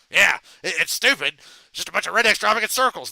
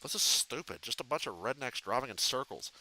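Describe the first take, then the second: First: Louder, higher hyper Beavis; Beavis impression. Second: A hint of bored Butthead, mumbled; Butthead impression. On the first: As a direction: squawk it out like excited Beavis. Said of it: "Beavis and Butthead". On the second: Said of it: "I look like Butthead from Beavis and Butthead".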